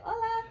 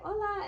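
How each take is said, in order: First: Very high bright hola; her own hola. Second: High sing-song hola; greeting quote. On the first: Answering the customer, very high hola. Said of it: "I'll be like". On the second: Customers greeting her, high sing-song hola. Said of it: "they'll come up to me and they're like". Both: Retold or imitated.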